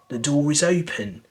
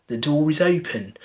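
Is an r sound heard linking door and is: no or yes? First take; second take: yes; yes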